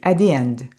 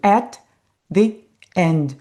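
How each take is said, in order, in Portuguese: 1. Os sons de T se unem em um só, sem pausa. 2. Os dois sons de T são ditos com uma pausa entre eles. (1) "Vai juntar tudo e vai ter o som de apenas um T" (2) "Eu não vou ficar repetindo at the end. Eu não vou fazer essa pausa"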